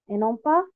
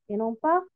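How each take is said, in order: The two takes are said the same way.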